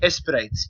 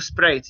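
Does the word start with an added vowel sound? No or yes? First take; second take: yes; no. First: An e vowel sound comes before the s. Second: The word starts directly with the s sound. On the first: The speaker calls it right. "You have to add the e" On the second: The speaker calls it wrong. "you don't say quiero quiero Sprite"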